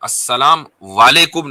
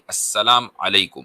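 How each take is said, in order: First: The second word begins with a 'w' sound. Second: The second word begins with a vowel sound. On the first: The speaker calls it wrong. "अस्सलाम वालेकुम नहीं" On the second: The speaker calls it right. "ये है"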